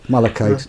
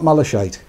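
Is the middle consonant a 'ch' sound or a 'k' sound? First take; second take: k sound; ch sound. First: The middle consonant is a 'k' sound. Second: The middle consonant is not a 'k' sound. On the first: The speaker calls it right. "Like Malachi" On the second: The speaker calls it wrong. "not malachite"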